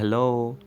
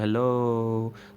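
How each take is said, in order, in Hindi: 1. यह शब्द छोटा और सामान्य तरीके से बोला गया है। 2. यह शब्द खींचकर और ज़ोर से बोला गया है। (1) "मैं बोलता हूँ हेलो" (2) "बल्कि ऐसा होगा हेलो"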